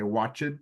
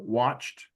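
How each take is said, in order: First: The word is said as two syllables. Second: The word is said as one syllable. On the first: The speaker calls it wrong. "You don't need to say watched" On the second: The speaker calls it right. "just make it like one syllable"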